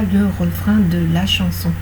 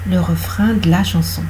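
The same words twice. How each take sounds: First: The vowel in 'de' is fully pronounced. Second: The vowel in 'de' is dropped. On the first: The speaker calls it wrong. "On ne dira pas" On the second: The speaker calls it right. "En français parlé, on dira"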